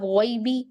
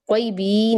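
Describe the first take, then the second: First: गॉइबी with a short final ई; गॉइबी, ending short; one-count ending. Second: कोई भी with the final ई stretched to two beats; कोई भी, long ending shown as wrong; wrongly lengthened ending. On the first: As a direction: keep the last vowel of गॉइबी to one beat. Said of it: "एक हरकत है". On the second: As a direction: drag out the last vowel of कोई भी as a mistake. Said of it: "दो हरकत नहीं देंगे". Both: Shown as a demonstration.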